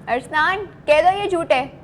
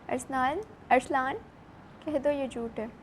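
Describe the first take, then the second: First: It is said in an angry tone. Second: It is said sadly, as if crying.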